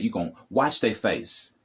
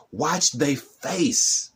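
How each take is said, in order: First: Said in the usual way. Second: Watch they face stretched out slowly and pitched higher; slow, drawn-out emphasis. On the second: Shown as a demonstration. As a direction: draw out every word of Watch they face, going higher. Repeats the line, then slows it.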